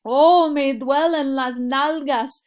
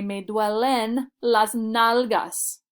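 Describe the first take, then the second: First: Higher and louder, slow, an exaggerated groan of complaint; mock pained complaint. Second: Very slow, each word laid out for learners; slow clear demo. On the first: Teacher acting out a sore bottom for students, hammed-up pained whine. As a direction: whine it like your backside really hurts. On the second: Shown as a demonstration. Teacher modelling the phrase for students, slow and clear. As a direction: spell it out slowly for the class. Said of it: "So I would say".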